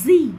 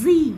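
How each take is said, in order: The two takes are said the same way.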